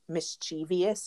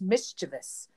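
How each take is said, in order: First: An extra 'ee' sound comes before the ending. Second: The ending has no extra 'ee' sound. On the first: The speaker calls it wrong. "when people say the word mischievous wrong, and they say mischievous" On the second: The speaker calls it right. "There's not an I in the end of that. It's just mischievous"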